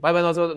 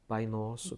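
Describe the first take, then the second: First: The phrase is said quickly and hurriedly. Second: The phrase is said slowly and deliberately. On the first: The prayer is rushed without attention. The speaker calls it wrong. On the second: The prayer is said with attention. The speaker calls it right.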